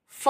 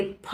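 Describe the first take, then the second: First: फ said as f, without closing both lips; wrong pronunciation. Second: फ said as aspirated ph from closed lips; correct pronunciation. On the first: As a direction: give फ the English f sound. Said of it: "फ नहीं बोलेंगे". (फ का ग़लत, f जैसा उच्चारण) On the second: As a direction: pop फ as p with a puff of air. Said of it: "फ बोलेंगे". (फ का सही, ph जैसा उच्चारण) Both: Shown as a demonstration.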